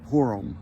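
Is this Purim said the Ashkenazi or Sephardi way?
Ashkenazi. It is said the Ashkenazi way, like 'poor-um'. The speaker calls it wrong.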